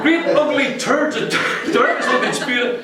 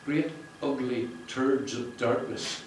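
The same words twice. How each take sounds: First: High, loud, laughing through Great ugly turds of darkness; laughing reread. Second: Slow, deliberate reading of Great ugly turds of darkness; read aloud slowly. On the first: Real, not acted. Rereading the author's phrase to the crowd, high and laughing. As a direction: repeat the phrase while cracking up. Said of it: "I'm only joking". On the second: Shown as a demonstration. Reading the author's line to the launch crowd, slow and deliberate. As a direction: lay out each word of the passage. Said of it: "if I can read it with that distance there".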